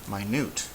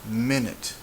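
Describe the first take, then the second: First: The stress is on the last syllable. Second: The stress is on the first syllable. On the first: The speaker calls it wrong. "it doesn't sound like minute" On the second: The speaker calls it right. "It sounds like minute. You see my voice goes down"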